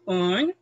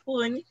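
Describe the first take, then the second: First: The pitch rises on the word. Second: The pitch falls on the word. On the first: The speaker calls it right. "it's going up because it's a yes" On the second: The speaker calls it wrong. "your tone here is getting down"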